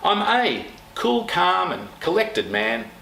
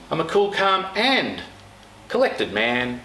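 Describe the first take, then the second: First: The word a carries the strongest stress. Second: The word calm carries the strongest stress.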